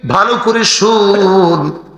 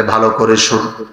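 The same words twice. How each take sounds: First: Half-sung, slow call to listen; chanted, draw out শুন on a long sustained note. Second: Said in the usual way. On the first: Acted. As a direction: intone it slowly like a pulpit chant. Chanted call, then spoken repeat.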